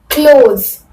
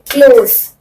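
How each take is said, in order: First: The word ends with a buzzing z sound. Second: The word ends with a hissing s sound. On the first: It means shut. "Z you have to make force or focus to Z" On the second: It means near. "sir, sir"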